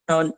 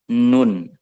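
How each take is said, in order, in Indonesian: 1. Kata ini tidak punya resonansi sengau, seperti hidung tersumbat. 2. Kata ini punya resonansi sengau penuh lewat hidung. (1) "Kalau nggak ada n-nya, cuma non. Kalau hidungnya ditutup" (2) "keluarnya dari al-khoisum... dari hidung"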